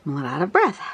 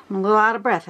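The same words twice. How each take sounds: First: Out of breath. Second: Lightly winded, catching breath; a bit out of breath. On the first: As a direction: let the breath drag, still puffing. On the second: To viewers after running up the stairs, slightly winded. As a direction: talk while still recovering from the stairs. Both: Real, not acted.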